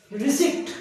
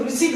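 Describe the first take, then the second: First: रिसिप्ट with the p sounded, raised; teacher shows the mistake first; wrong pronunciation. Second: रिसीट said ri-seet, no p; teacher gives the right form; correct pronunciation. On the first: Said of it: "इसको रिसिप्ट नहीं बोलना है". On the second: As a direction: say रिसीट with a silent p. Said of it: "आप इसको रिसीट बोलेंगे". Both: Shown as a demonstration.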